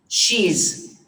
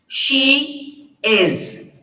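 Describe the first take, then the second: First: It is said as one shortened contracted word. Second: It is said as two separate full words.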